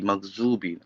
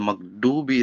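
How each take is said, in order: First: The middle consonant is a Z sound. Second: The middle consonant is a D sound. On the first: "maghzubi with the Z" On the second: "like we say maghdubi"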